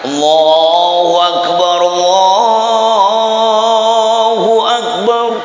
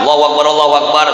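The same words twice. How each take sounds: First: It is said slowly, drawn out. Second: It is said quickly, without lingering.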